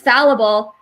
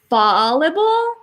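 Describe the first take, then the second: First: The first syllable has a short 'a' vowel. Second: The first syllable sounds like the word 'fall'. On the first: The speaker calls it right. "then I guess it's fallible" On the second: The speaker calls it wrong. "I used to pronounce it fallible"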